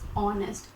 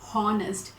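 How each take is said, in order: First: The word starts with a vowel, h silent. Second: The word starts with an audible h sound. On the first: The speaker calls it right. "So the H here is always silent" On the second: The speaker calls it wrong. "not honest"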